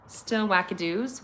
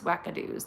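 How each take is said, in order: First: Said in the usual way. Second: Breathy whispered repeat of wackadoos; whispered echo. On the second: Acted. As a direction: whisper wackadoos back to yourself like a secret. Playful word echoed in whisper.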